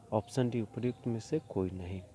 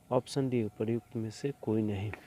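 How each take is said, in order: The two takes are said the same way.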